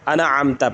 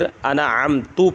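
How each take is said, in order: First: The word ends with an 'a' vowel. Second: The word ends with a 'u' vowel. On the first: The speaker calls it right. "इसी तरह अनअमता है" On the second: The speaker calls it wrong. "ता के ऊपर पेश पढ़ देना"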